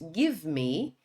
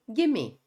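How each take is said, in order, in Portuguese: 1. As duas palavras são pronunciadas completamente e separadamente. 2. As palavras são ligadas em uma só palavra reduzida. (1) "Em vez de dizermos give me" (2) "ele virou gimme"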